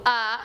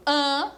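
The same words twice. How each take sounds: First: A as a pure open oral vowel. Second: AN as a nasalized A; nasal A. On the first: Teacher shows pupils the oral vowel, open A. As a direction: say A open, with no nasality. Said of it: "ele é oral". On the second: Teacher contrasts it with oral A, nasal AN. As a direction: send AN through the nose. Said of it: "ele é nasal". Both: Shown as a demonstration.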